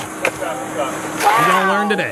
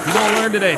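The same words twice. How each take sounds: First: Slow, drawn-out taunt; gloating. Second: Said in the usual way. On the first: Real, not acted. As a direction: savour every word slowly. Gloating at an arrest.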